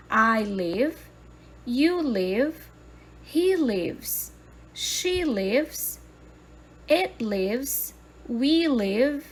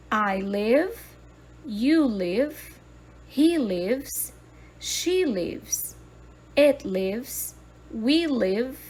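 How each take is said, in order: Both takes have the same delivery.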